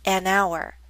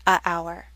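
First: An n sound links the article to 'hour'. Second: No n sound comes before 'hour'. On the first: The speaker calls it right. "That's why we say an hour" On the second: The speaker calls it wrong. "not a hour"

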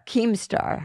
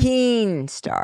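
First: The first part ends with an m sound. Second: The first part ends with an n sound. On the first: The speaker calls it right. "That's correct" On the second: The speaker calls it wrong. "We are not accepting Keen Star"

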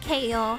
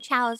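First: It is said as two syllables, kay-oh. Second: It is said as one syllable, chow. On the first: The speaker calls it wrong. "I always said like K O" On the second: The speaker calls it right. "I think they're chows"

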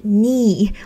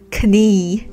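First: The word starts with an n sound. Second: The word starts with a k sound. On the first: The speaker calls it right. "开头的这个K 是不发音的，所以就是knee" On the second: The speaker calls it wrong. "不要读成了knee"

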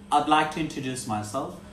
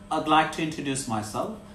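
Both takes have the same delivery.

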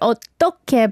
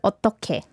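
First: The word is said with strong, forced energy. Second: The word is said softly and relaxed. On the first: The speaker calls it wrong. "It's not like" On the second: The speaker calls it right. "should be kind of more naturally"

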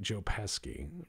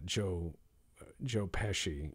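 First: The c is said hard, like k. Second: The c is said softly, like sh. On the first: "pronounce it with a hard C" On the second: "instead of Joe Pesci"

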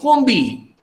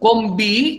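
First: The sound before b sounds like n. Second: The sound before b sounds like m. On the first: The speaker calls it right. "It is Konbi" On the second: The speaker calls it wrong. "it is not Konbi"

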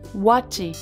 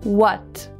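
First: An extra vowel syllable follows the final consonant. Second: The word ends cleanly on the final consonant. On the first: The speaker calls it wrong. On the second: The speaker calls it right.

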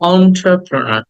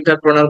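First: It begins with an on sound. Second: It begins with an en sound. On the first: The speaker calls it right. "It should be pronounce like অন্ট্রাপ্রনার" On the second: The speaker calls it wrong. "আমরা এটাকে এন্টারপ্রেনার বলি"

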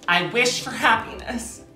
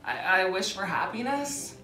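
First: It is said earnestly, with real feeling. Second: It is said flatly, without real feeling. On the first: The wish is sincerely meant. The speaker calls it right. "Say it like you mean it" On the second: The wish is not truly meant. The speaker calls it wrong. "You can't say it like that"

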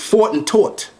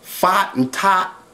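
First: The vowel is pronounced as a rounded 'aw'. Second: The vowel is pronounced as an open 'ah'. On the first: The speaker calls it right. "is fought and taught" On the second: The speaker calls it wrong. "Why do you pronounce the sound or with ah?"

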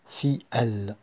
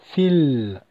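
First: The two words are said apart, unjoined. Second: The two words are joined into one syllable. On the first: The speaker calls it wrong. "et non pas fi, elle" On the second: The speaker calls it right. "on va prononcer fil"

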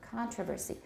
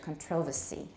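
First: The stress falls on the first syllable. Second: The stress falls on the second syllable. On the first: This is the American pronunciation. "Controversy in American" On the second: This is the British pronunciation. "it's what I hear from my teacher"

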